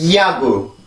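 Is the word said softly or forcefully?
forcefully. It is said forcefully, with much more air. "영어입니다. … 영어 소리로 만들어 보면 훨씬 더 세다라는 느낌이"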